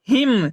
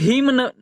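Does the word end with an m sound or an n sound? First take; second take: m sound; n sound. First: The word ends with an m sound. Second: The word ends with an audible n sound. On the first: The speaker calls it right. "इसे हम लोग शुद्ध क्या पढ़ेंगे" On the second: The speaker calls it wrong. "न ही इसको हम लोग हिम न, यानी न का उच्चारण नहीं करते"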